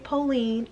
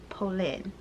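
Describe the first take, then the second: First: It sounds like the English name Pauline. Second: It does not sound like the English name Pauline. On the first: The speaker calls it wrong. "I'm going to say Pauline, and I apologize for those that are like, you cringe every time I say it" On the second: The speaker calls it right. "I'm going to try to pronounce it correctly"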